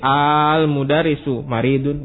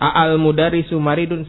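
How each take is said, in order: First: The opening vowel of al is long. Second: The opening vowel of al is short. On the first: The speaker calls it right. "tapi al-mudarisu maridun ... jadi baca panjang al" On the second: The speaker calls it wrong. "bukan al-mudarisu maridun, salah"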